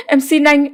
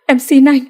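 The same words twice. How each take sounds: First: High pleading repeat of em xin anh, held longer on xin; repeated plea. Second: High, tearful begging on em xin anh; crying plea. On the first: Begging her brother-in-law again, pleading high. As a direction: beg again, stretching xin. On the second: Clinging to her brother-in-law, tearful high begging. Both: A narrator's reading. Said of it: "nói như van lơn".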